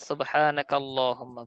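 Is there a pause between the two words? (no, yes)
no. The two words are joined without a break. The speaker calls it right. "একসাথে মিলিয়ে পড়লে ... ভালো হবে"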